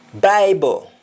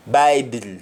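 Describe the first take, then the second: First: "Bible" ending in o, said baibo; Jamaican le ending. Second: Said in the usual way. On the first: Shown as a demonstration. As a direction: end "Bible" on an o. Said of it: "L E is pronounced as though it is O". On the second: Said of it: "words that end with L E".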